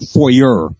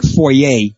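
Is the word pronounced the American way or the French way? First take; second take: American; French. First: It is pronounced the American way. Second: It is pronounced the French way. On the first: The speaker calls it wrong. "not foyer" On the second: The speaker calls it right. "It's just like foyer"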